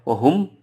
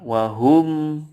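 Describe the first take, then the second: First: The final m is cut very short. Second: The final m is held a medium length. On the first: The speaker calls it wrong. "tidak boleh wahum" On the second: The speaker calls it right. "Tetapi tengah-tengah"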